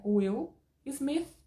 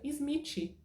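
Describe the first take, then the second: First: Smith said with a clean final th, not izmitchi; correct English. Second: Smith said izmitchi, with an added i and a final tchi; mock Brazilian error. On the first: Teacher modelling the correct pronunciation of Smith. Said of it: "a pronúncia é Will Smith". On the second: Teacher imitating students' wrong pronunciation of Smith. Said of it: "já não pronuncia Smith, porque tá errado". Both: Shown as a demonstration.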